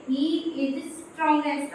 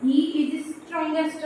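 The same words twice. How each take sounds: First: Example read slowly before writing it down; slowed example. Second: Every word drawn out while writing it on the board; very slow dictation. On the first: Teacher showing students the superlative, read slowly. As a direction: say it slowly as you show it. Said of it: "अब हम यहाँ पे क्या लिखेंगे". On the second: Teacher writing the sentence for students, very slow dictation. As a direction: stretch each word as you write it. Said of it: "हमने यहाँ पे लिख दिया". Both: Shown as a demonstration.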